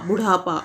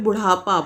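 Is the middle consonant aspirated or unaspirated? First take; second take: aspirated; aspirated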